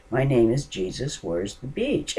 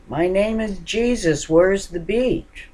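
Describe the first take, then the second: First: A lightly raised retelling of the shout; repeating. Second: Loud, high shouted question; yelling stranger. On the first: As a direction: say it again, only a little raised. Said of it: "kept saying to me over and over". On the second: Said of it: "banging on my door and yelling". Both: Retold or imitated.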